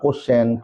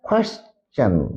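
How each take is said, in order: First: The word begins with a plain 'ko' sound. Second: The word begins with a gliding 'kwe' sound. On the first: The speaker calls it wrong. "আমরা অনেকে বলি যে কোশ্চেন" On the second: The speaker calls it right. "সঠিক উচ্চারণ হবে"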